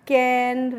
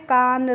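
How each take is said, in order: First: The vowel is a front vowel like in cat. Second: The vowel is a long open vowel like in car. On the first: The speaker calls it right. "आपको कैन, ... इस तरीके से पढ़ना है" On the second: The speaker calls it wrong. "कान, ... इस तरीके से नहीं पढ़ना है"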